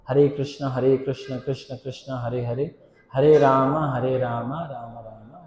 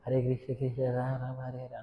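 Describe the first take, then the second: First: Every syllable is said slowly and distinctly. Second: It is said fast with syllables swallowed. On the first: The speaker calls it right. "ఎలాగా?" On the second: The speaker calls it wrong. "ఎంత స్పీడ్గా చెప్తారు కదా"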